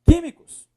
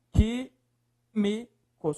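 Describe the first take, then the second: First: Said in the usual way. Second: "Químicos" broken into slow, separate syllables. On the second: Shown as a demonstration. Teacher splitting the word for students, syllable by syllable.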